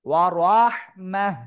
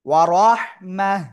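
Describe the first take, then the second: First: The word ends with a silent-vowel 'h' sound. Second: The word ends with a silent-vowel 'h' sound.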